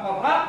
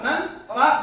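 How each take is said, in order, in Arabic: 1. تتصل الكلمتان ببعضهما دون توقف. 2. يفصل بين الكلمتين توقف خفيف. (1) "ولا تقرأ مراق" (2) "تقرأ من راق بسكتة"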